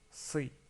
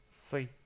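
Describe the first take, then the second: No difference in how they are said.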